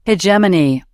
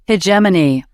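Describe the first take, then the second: Both takes have the same delivery.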